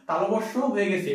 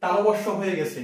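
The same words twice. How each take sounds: The two takes are said the same way.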